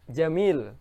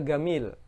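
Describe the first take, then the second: First: The word begins with a j sound. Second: The word begins with a g sound. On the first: This is the standard Arabic form. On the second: This is the Egyptian everyday form.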